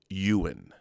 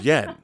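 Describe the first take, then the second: First: The name is said with two syllables. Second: The name is said with one syllable. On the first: The speaker calls it right. "your last name was pronounced Ewan" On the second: The speaker calls it wrong. "thought it was Yen"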